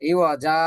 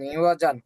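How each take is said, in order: First: The word ends with a long vowel. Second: The word ends with an n sound. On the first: "ও ফু করলে হবে" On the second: "ইওয়া জিম আলিফ দুই জবর জান"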